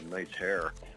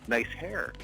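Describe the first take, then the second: First: It sounds snarky and sarcastic. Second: It sounds sincere and friendly. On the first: The compliment is mocking. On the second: The compliment is genuine.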